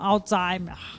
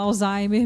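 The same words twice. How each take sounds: First: The name is pronounced closer to the German way. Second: The name is pronounced the usual Portuguese way. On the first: This is the form used by people who study the disease. "a gente que estuda um pouquinho acaba falando Alzheimer" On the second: This is the everyday form used in Portuguese. "em português a gente fala Alzheimer mesmo"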